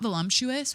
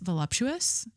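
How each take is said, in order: First: The word is said with an M sound. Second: The word is said without an M sound. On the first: The speaker calls it wrong. "It's not voluptuous with an M" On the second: The speaker calls it right. "It's voluptuous"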